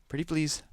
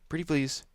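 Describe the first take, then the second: The two takes are said the same way.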